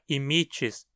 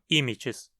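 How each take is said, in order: First: The stress is on the second syllable. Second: The stress is on the first syllable. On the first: The speaker calls it right. "o i na penúltima sílaba é longo, o que faz com que a pronúncia seja imites" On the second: The speaker calls it wrong. "e não imites"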